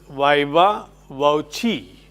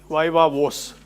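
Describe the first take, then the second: First: The second word has two syllables. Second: The second word has one syllable. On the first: The speaker calls it right. "but it is" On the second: The speaker calls it wrong. "some people say"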